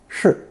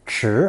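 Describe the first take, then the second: First: The syllable is said light and unstressed. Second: The syllable is said with a rising tone. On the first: It means a key. "given the unstressed pronunciation" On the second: It means a spoon. "pronounced second tone"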